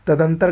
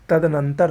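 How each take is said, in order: First: तदंतर short, missing na; wrong form. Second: तदनंतर with the extra na; correct form. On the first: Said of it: "गलत है". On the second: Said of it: "सही होता है". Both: Shown as a demonstration.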